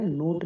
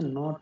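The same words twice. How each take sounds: First: नोट with a long oh; long O sound. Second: नॉट with an open aw; short O sound. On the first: Teacher rejecting a misreading, नोट with long oh. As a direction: say नोट as in English note. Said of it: "नोट नहीं होता". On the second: Teacher correcting the reading, नॉट with open o. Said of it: "नॉट होता है". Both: Shown as a demonstration.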